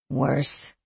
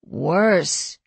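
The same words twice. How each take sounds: First: Low, soft, dejected sigh. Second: Drawn out with mild defeat. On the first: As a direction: let the word sink out on a tired sigh. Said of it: "she sighed". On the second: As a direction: give in to the bad news, falling away at the end. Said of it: "She sounded defeated". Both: A narrator's reading.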